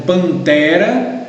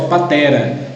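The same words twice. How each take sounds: First: Said in the usual way. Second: "patera" with no nasal N after the first A; missing N sound. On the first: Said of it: "tem um N lá". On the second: Shown as a demonstration. Teacher reading out a child's misspelling, "patera" without the N. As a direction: say "patera", dropping the N of pantera. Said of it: "ele escreve só patera".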